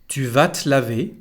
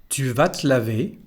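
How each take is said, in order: No difference in how they are said.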